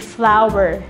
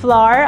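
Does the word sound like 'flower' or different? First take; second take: flower; different. First: The vowel sounds just like 'flower'. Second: The vowel does not sound like 'flower'. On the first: The speaker calls it right. "kundi flour. Kapareho po ng bulaklak" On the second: The speaker calls it wrong. "hindi flour ang bigkas doon"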